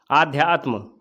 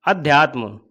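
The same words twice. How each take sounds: First: आध्यात्म with a long opening aa; teacher voicing the wrong आध्यात्म with long aa; wrong form. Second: अध्यात्म with a short opening a; teacher giving the correct अध्यात्म with short a; correct form. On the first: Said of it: "आध्यात्म बिल्कुल गलत है". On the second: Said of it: "अध्यात्म होता है". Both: Shown as a demonstration.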